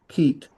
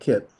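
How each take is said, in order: First: The vowel is a long ee sound. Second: The vowel is a short ih sound. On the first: The speaker calls it right. "this is a I sound, so it's keet" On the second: The speaker calls it wrong. "not kit"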